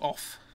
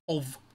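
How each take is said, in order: First: The word ends with a voiceless F sound. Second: The word ends with a voiced V sound. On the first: The speaker calls it wrong. "Not off" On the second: The speaker calls it right. "it's of"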